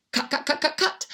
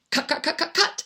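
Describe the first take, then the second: No difference in how they are said.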